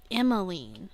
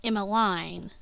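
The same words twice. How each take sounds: First: Emmeline ending in leen, EM-uh-leen. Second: Emmeline ending in line, EM-uh-line. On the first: Trying her character's name, Emmeline ending in leen. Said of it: "it's so fucking hard to say". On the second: Naming her character, Emmeline ending in line. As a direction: say Emmeline rhyming its end with line. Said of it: "which I would pronounce". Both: Shown as a demonstration.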